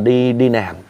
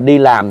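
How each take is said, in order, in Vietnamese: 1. Từ làm bắt đầu bằng âm n. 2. Từ làm bắt đầu bằng âm l. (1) "thì kêu là" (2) "Ví dụ đi làm"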